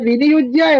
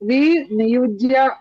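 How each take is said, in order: First: The word is said smoothly as one unit. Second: The word is split with a break after 'vi'. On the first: The speaker calls it right. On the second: The speaker calls it wrong.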